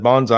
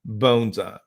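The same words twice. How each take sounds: First: The word sounds like 'banzai'. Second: The first vowel sounds like 'bone'. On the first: The speaker calls it wrong. "if you messed up in the class and said bonsai" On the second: The speaker calls it right. "I would correct you"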